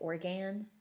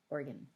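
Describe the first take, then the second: First: The last syllable has a full, clearly enunciated vowel. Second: The last syllable is a mushy, reduced schwa. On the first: The speaker calls it wrong. "We don't say organ" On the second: The speaker calls it right. "we say organ"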